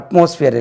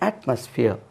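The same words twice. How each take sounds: First: The first vowel differs from the vowel in 'bat'. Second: The first vowel matches the vowel in 'bat'. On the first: The speaker calls it wrong. "அட்மாஸ்பியர் இல்லை" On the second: The speaker calls it right. "இது அட்மாஸ்பியர்"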